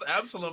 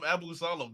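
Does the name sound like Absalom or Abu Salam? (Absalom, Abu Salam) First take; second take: Absalom; Abu Salam. First: The name is said as 'Absalom'. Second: The name is said as 'Abu Salam'. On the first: The speaker calls it right. "he calls Absalom" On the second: The speaker calls it wrong. "he calls Absalom Abu Salam"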